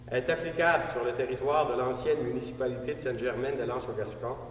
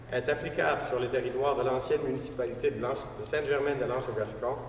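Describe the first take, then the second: No difference in how they are said.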